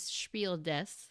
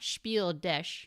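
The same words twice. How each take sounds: First: The word 'des' ends with an s sound. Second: The word 'des' ends with a sh sound. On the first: The speaker calls it right. "the S at the end of des is S" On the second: The speaker calls it wrong. "So it's not Spiel des"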